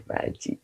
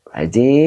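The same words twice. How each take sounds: First: Softly asking under the breath, "Pak Haji?" low and muted; half to himself, wondering where "Pak Haji" is; quiet aside. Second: "Pak Haji" called out louder with a lift at the end; calling out. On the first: Ustadz muttering to himself while searching the chat, softly. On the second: Ustadz calling out to the absent Pak Haji, louder. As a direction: call the name "Pak Haji" across the room. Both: Real, not acted.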